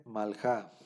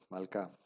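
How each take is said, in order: First: Malja said with a rasping throat sound, like Spanish j; reading Malja with a throaty kh sound; mistaken reading. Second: Malca said with a hard k sound, a touch lower; corrected malca with a crisp k, said a little lower; corrected reading. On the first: Real, not acted. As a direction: misread Malja with a guttural j before correcting. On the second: Shown as a demonstration. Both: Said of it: "Malca, perdón".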